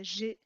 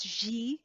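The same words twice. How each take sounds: First: The vowel is a short, neutral schwa. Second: The vowel is a full, wide ee sound. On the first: "more like a schwa" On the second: "like as a wide sounding I"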